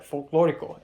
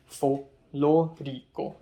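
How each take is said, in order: First: Said in the usual way. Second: Folklorico drawn out syllable by syllable; slow teaching pronunciation. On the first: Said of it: "I immediately said folklorico". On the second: Retold or imitated. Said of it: "tried to teach Eric how to say it".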